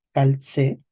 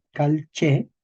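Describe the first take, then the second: First: "calce" said as cal, tse; depalatalized tse. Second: "calche" slowly, with ch; palatalized che. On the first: Teacher shows depalatalization, "calce" as cal-tse. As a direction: turn the c of "calce" into ts. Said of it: "Luego tenemos una depalatalización". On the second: Teacher recalls palatalization step, "calche" slow with ch. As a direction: pause after cal, then che in "calche". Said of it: "palatalización". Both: Shown as a demonstration.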